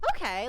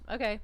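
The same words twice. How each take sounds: First: It is said brightly, with lively emotion. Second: It is said flatly, without any emotion. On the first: "Like he doesn't go okay" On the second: "his whole face drops, and he goes okay"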